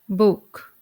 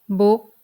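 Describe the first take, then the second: First: The final k is audibly released. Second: The final k is held without release. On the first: "in the English pronunciation" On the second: "then in a Thai pronunciation"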